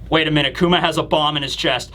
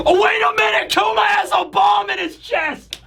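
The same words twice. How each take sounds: First: Said in the usual way. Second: Real hype. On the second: Real, not acted. Fan realizing Kuma's bomb will nuke Egghead, excited yell.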